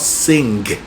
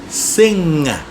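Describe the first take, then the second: First: It ends in ng with a hard g. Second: It ends in ng with no hard g. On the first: The speaker calls it wrong. "not sing" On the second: The speaker calls it right. "We don't hear the G"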